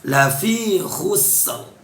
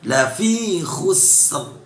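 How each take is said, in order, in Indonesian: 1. Bunyi r di akhir jelas dibaca. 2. Bunyi r di akhir jelas dibaca.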